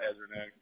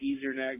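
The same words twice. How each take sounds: First: The name is said in a relaxed, natural way. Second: The name is said with exaggerated, clear emphasis. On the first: This is the name's true pronunciation. "but I'm really to Ezernak" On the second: It is made easier to hear on the phone. "I say it like Ezernak just so that to be more clear"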